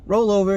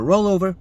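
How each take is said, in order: First: Higher, louder command to a dog. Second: Said in the usual way. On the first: Pretend. Owner training a dog to roll over, commanding. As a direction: call it out like training a puppy.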